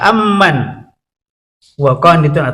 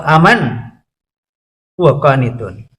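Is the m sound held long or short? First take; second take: long; short. First: The m sound is doubled and held long. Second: The m sound is single and short. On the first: "bisa dibaca dua macam" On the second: "dibaca takhfif, Ringan, aman gitu"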